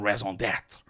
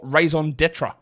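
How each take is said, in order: First: It is said in a French accent. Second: It is said in a plain English accent.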